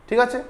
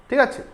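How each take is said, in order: No difference in how they are said.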